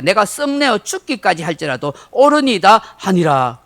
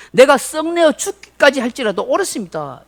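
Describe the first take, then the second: First: Said in the usual way. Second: Defiant talking back. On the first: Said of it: "그가 대답하되". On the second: Retold or imitated. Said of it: "하나님께 대들면서 말합니다".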